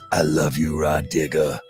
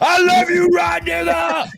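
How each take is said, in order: First: It is said raspy at normal volume. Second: It is shouted loudly like a scream. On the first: "extra little rasp in his voice" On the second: "all caps mean he's screaming it"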